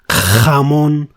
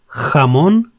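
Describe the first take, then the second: First: The first consonant is strongly exaggerated and harsh. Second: The first consonant is moderate and softer. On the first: The speaker calls it wrong. "do not try to stress it too much, like" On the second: The speaker calls it right.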